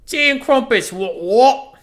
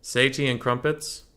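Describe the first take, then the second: First: High, loud hammed-up British accent; mock British accent. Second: Said in the usual way. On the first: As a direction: belt it out as an over-the-top Brit.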